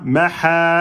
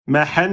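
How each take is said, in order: First: The word ends with a long vowel, no n. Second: The word ends with a short vowel plus n. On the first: The reader stops on this word. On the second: The reader continues without stopping.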